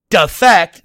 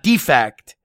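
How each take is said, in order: First: The stress is on the second syllable. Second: The stress is on the first syllable. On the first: The word is a verb meaning to desert a side. The speaker calls it right. "they mean defect" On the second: The word is a noun meaning a flaw. The speaker calls it wrong. "not defect"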